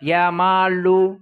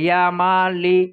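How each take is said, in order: First: The last word ends with a 'u' vowel. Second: The last word ends with an 'i' vowel. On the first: The letter is treated as fixed on a u ending. "এটাও পড়তে পারো" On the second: The letter keeps its original vowel. "যেটা আসলি হারকাত, আসল হারকাত"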